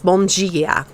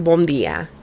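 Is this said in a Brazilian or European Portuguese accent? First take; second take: Brazilian; European. First: It is said in a Brazilian Portuguese accent. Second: It is said in a European Portuguese accent. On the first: "But in Brazilian Portuguese, it's" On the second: "In Portugal, you say"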